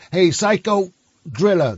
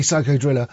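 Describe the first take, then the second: First: Slower American-accent imitation. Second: Said in the usual way. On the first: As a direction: lightly mimic an American saying it. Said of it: "'cause that's how Americans say it". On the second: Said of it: "It's actually Psycho Driller".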